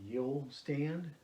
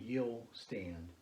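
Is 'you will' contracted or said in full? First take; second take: contracted; contracted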